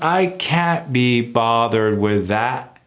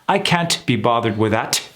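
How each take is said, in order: First: The words flow smoothly together without breaks. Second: The words are broken apart in a choppy way.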